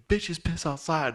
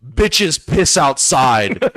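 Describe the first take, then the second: First: Said in the usual way. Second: Slow cocky put-down; slow, deliberate punchline. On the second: Acted. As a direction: drag out each word with swagger. Punchline said over the fence.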